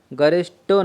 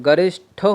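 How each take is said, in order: First: गरिष्ठो with unaspirated ṭ, garishto; wrong form. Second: गरिष्ठो with aspirated ṭh, garishtho; correct aspiration. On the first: Teacher rejecting the mistake, गरिष्ठो with unaspirated ṭ. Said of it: "नहीं होता है". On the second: Teacher repeating the right word, गरिष्ठो with aspirated ṭh. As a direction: puff air on the ठ of गरिष्ठो. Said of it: "होता है". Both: Shown as a demonstration.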